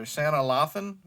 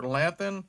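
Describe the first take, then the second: First: Lathan said "LAH-thun", broad ah; unsure name pronunciation. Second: Lathan said "LATH-un", short a; alternative name pronunciation. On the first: Vlogger guessing at an actress's name, "Lathan" as LAH-thun. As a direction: say "Lathan" with an open AH first vowel. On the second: Vlogger offering a second guess, "Lathan" as LATH-un. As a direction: say "Lathan" with the vowel of "cat". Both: Shown as a demonstration. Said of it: "How do you say it?".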